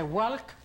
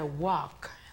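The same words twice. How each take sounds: First: The L sound is pronounced. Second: The L sound is silent. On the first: The speaker calls it wrong. "no se dice walk" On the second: The speaker calls it right. "sino que se dice walk"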